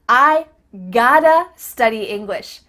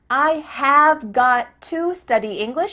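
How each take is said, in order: First: 'Have got to' is reduced to 'gotta'. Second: 'Have got to' is said in full.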